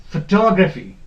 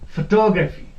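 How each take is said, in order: The two takes are said the same way.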